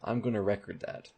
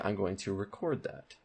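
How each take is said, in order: First: The stress in record is on the first syllable. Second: The stress in record is on the second syllable. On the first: The speaker calls it wrong. "you would never say" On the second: The speaker calls it right. "You would say"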